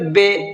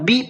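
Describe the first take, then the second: First: The vowel sounds like 'ay'. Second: The vowel sounds like 'ee'. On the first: The speaker calls it wrong. "ये बे पढ़ना मजहूल कहलाता है" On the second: The speaker calls it right. "बी पढ़ना है"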